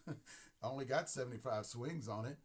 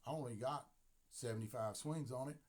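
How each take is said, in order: First: Thicker country accent with a laugh. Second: Country accent. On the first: Repeating the player's excuse in a heavier country accent. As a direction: lean into the country twang. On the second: Player telling Dave about his bat, in a country accent. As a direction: say it like a country boy. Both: Shown as a demonstration. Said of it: "See my country accent?".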